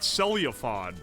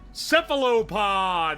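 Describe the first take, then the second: First: The word begins with a 'cel' sound. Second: The word begins with a 'ceph' sound. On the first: The speaker calls it wrong. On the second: The speaker calls it right. "That's how you say it"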